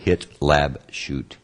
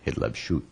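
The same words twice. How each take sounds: First: Hitlabshut in three slow syllables, hit-lab-shut; slow, careful Hitlabshut, one syllable at a time. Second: Hitlabshut with the last syllable shut stressed; Hitlabshut, hit-lab-SHUT, end stressed. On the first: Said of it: "You can break it down in three syllables". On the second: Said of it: "The emphasis is on the last syllable". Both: Shown as a demonstration.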